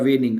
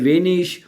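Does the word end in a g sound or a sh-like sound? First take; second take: g sound; sh sound. First: The word ends in a hard g sound. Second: The word ends in a soft sh-like sound. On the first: "बाज इसको जी की आवाज में भी पढ़ लेते हैं" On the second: "बाज लोग इसको शीन की आवाज में पढ़ते हैं"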